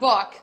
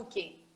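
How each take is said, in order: First: It ends on a clipped k with no vowel. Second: It ends with an extra vowel after k. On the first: The speaker calls it right. "como se eu parasse na metade do cá" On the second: The speaker calls it wrong. "senão eles vão falar"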